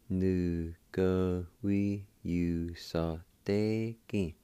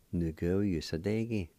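First: Syllables strung together very slowly; teacher slowing the word right down; slow blended demo. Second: Said in the usual way. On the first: Shown as a demonstration. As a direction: stretch the word out slowly for learners.

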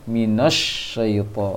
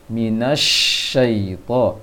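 First: "minasyaita" with na rounded to "no", pouted shin; bacaan salah ditiru. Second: "minasyaita" with a clear open "na", lips unrounded on shin; bacaan yang benar. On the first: Retold or imitated. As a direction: imitate the faulty "minosy-" sound in "minasyaita". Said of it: "Sehingga terbaca tadi". (meniru "minasyaita" dengan bibir monyong, "na" jadi "no") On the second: Shown as a demonstration. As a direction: slowly model "minasyaita" without pouting the lips. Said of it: "Seharusnya dibaca". ("minasyaita" dengan "na" fathah jelas, bibir tidak monyong)

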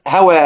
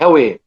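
First: هوى ending on a long open "aa"; fath, open vowel. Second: هوى with the final "aa" tilted toward "ee", like "hawee"; imala. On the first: Teacher showing students the fath reading, هوى with open "aa". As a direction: hold the last vowel of هوى wide open, no tilt toward "e". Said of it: "قرأ بفتح مثلًا". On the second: Teacher showing students the imala reading, هوى ending in "e". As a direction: bend the last vowel of هوى to a long "e". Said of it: "أمال ذوات الياء". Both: Shown as a demonstration.

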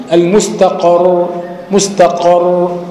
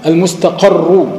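First: المستقر very slow, ending on a heavy stopped doubled r; pausal form. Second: المستقر slow, the doubled r carrying a final u; connected reading. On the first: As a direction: stop on المستقر with a silent, heavy r. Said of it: "لو وقفت، وقفت على الراء". (المستقر وقفاً بسكون الراء وتفخيمها) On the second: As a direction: say المستقر joined, stressing the doubled r with damma. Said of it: "وصلا". (المستقر وصلاً براء مشددة مضمومة) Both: Shown as a demonstration.

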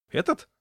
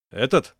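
First: Much higher, jumpy question; nervös hochgeschreckt; nervous. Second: Said in the usual way. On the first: A narrator's reading. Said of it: "нервно подпрыгнул". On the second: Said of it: "кивнул он".

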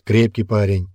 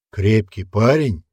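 First: Firm, satisfied statement; approving. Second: Slow, challenging question; incredulous echo. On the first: Old man approves of the boy. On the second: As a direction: throw the words back as a question. Rokon challenges the old man's words. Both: A narrator's reading.

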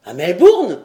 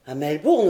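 First: Loud, sharp query; startled question. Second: Said in the usual way. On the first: A narrator's reading. Lord querying where the letter arrived, startled. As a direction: cut in with surprise, louder.

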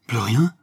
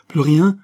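First: Said in the usual way. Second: "Plus rien?" flung out loud and much higher, rising; "Plus rien?" as a loud, high, wounded outburst; bursting out. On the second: A narrator's reading. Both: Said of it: "éclata Robert".

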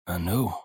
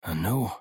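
First: Faint, low, frightened murmur; the word dies on ashen lips; barely gets the word out. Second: Said in the usual way. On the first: Acted. Silver forces out a word to his crew, faint with fear. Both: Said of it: "Lippen konnten kaum das Wort hervorbringen".

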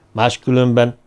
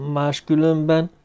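First: Said in the usual way. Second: "máskülönben" lifted higher as a question; questioning echo. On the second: A narrator's reading. Listener echoes the threat's first word.

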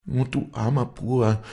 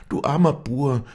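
First: High, wailing lament; keen over him; grieving lament over the wounded man; loud lament. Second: Higher, louder wail on "armer"; keening, rising above the first cry; louder lament. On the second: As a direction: let the grief rise further. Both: A narrator's reading. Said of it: "So klagte sie laut".

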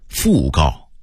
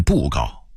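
First: Said in the usual way. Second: 讣告 as 布告, bùgào; Beijing reading. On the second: Shown as a demonstration. Narrator contrasting word lists, Beijing reading. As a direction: start 布告 with b, not f. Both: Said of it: "北京话念布告".

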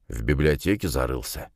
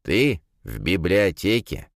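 First: Thoughtful. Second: «библиотеке» rising in disbelief, drawn out; incredulous. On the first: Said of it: "задумчиво произнёс". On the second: Friend can't believe the professor sits in a library, «библиотеке» rising. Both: A narrator's reading.

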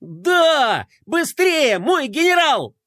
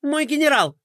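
First: High, loud gleeful shout; joyful yelling. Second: High, quick anxious plea; high pleading adjutant. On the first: Adjutant cheering the general, loud joyful yell. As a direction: cheer it loudly from the sled. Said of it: "радостно вопить". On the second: Adjutant pleading with his furious general, high anxious voice. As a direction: plead with the boss nervously. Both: Acted.

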